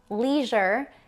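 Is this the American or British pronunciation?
American. It is said with an American pronunciation.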